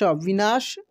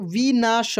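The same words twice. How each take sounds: First: Said in the usual way. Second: विनाश broken into vi, naa, sha; syllable by syllable. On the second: Shown as a demonstration. Teacher reading for learners, विनाश syllable by syllable. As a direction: sound out विनाश in separate syllables. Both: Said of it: "अब direct पढ़ते हैं".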